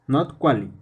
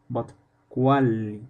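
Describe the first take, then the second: First: The L is short, like a normal L. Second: The L is held long, like a double L. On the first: The speaker calls it wrong. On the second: The speaker calls it right. "Double L sounds like a large L"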